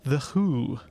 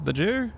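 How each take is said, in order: First: The J is a soft, breathy Spanish sound. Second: The J is a hard English J sound.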